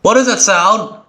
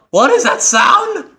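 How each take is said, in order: First: Curious, a bit higher, leaning in; puzzled question. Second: Sharply higher, startled alarm; alarmed question. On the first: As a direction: ask it wondering what's there. Hears strange noise in game. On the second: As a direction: repeat it spooked and rattled. Repeats, alarmed by the noise. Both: Real, not acted.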